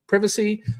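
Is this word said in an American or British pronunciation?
British. It is said with a British pronunciation. "I'm not British, so I don't say it like privacy"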